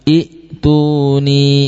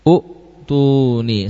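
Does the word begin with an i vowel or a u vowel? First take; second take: i; u. First: The word begins with an i vowel. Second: The word begins with a u vowel. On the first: The speaker calls it right. "Yang betul adalah i'tuni" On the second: The speaker calls it wrong. "hamzah harus dibaca dhammah ya"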